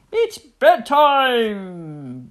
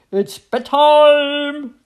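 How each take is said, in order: First: Loud, long drawn-out bellow; bellowing daddy hippo. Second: High, loud, long drawn-out call; trumpeting mummy elephant. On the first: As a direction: boom it out slowly, stretching the last word. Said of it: "bellowed Daddy Hippo". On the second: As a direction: trumpet it out, stretching the last word. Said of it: "trumpeted Mummy Elephant". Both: A narrator's reading.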